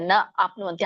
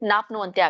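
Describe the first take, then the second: First: The two words are said separately. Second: The two words merge into one word. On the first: "ನ ಆಪ್ನುವಂತಿ ಹಾಗೂನು ಹೇಳ್ಬೋದು" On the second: "ನ ಆಪ್ನುವಂತಿ ಕೂಡಿ ನಾಪ್ನುವಂತಿ ಆಗತ್ತೆ"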